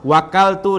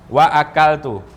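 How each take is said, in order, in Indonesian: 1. Wa langsung menyambung ke akaltu tanpa hentian. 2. Hentian glotal memisahkan wa dari akaltu. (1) "Tidak boleh kita wakaltu, tidak boleh. kita tidak menyebutkan a-nya" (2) "hamzah qata' di tengah kalimat karena didahului waw"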